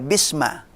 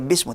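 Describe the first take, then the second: First: The word ends with an a vowel. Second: The word ends with a u vowel. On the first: "enggak dibaca bisma" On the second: "enggak dibaca bismu"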